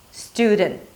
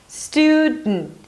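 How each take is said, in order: First: The D is slightly released before the N. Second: The D is held and released through the nose. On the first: "you can release slightly the D" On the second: "you make a D sound, but you don't release it. You just release it through the nose"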